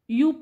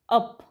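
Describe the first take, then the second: First: The word begins with a 'yu' sound. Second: The word begins with a short 'uh' sound. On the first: The speaker calls it wrong. "यूप वाचायचं नाही ह्याला" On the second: The speaker calls it right. "त्याचा sound होतो अ"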